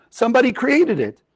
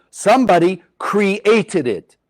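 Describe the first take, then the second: First: "created" lifted high as the peak of "Somebody created it"; stress on created. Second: "Somebody" drawn out slowly and weighted, the rest following at the same slow pace; stress on somebody. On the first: Teacher driving the point home to students, rising high on "created". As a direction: pitch up on "created". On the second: Teacher stressing to the class who made the phone, slow and weighted. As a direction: lean slowly into "Somebody created it". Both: Shown as a demonstration. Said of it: "teacher repeats key point".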